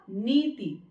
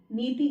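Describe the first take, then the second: First: नीति with long "nee", short "ti"; correct pronunciation. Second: नीति with a long final "tee"; wrong pronunciation. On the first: Teacher models correct word, नीति with short final i. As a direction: stress the नी of नीति, brief ending. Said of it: "शुद्ध उच्चारण होता है इसका". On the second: Teacher shows the error, long-ended नीति. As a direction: stretch the last vowel of नीति. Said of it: "नीति गलत है pronunciation". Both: Shown as a demonstration.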